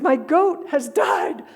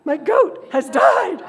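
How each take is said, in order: First: Slow, louder, higher wail falling at the end; hammed-up lament over a goat; mock wailing. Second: Slow, louder, higher wail rising at the end; hammed-up lament, voice climbing; mock wailing. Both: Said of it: "this wailing and moaning".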